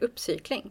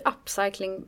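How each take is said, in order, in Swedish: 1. Ordet uttalas på svenska sättet. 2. Ordet uttalas på engelska sättet.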